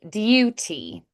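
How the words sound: A y sound comes before the oo. "They would say duty. So you add the y before"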